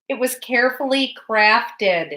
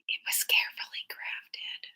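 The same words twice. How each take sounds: First: It is said at a louder volume. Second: It is said at a quieter volume.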